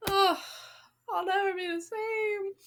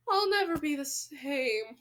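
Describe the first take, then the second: First: Hammed-up tearful wail, higher; mock crying. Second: Said in the usual way. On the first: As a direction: pretend to be heartbroken. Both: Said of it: "I'm just kidding".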